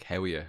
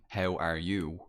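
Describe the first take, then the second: First: "How are you?" run together as "howya"; clipped local "How are you?" like "how're ya"; Irish colloquial. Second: Said in the usual way. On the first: Retold or imitated. Irishman greeting a friend the local way, "How are you?" slurred to "howya". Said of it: "They'll still say". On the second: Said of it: "rather than".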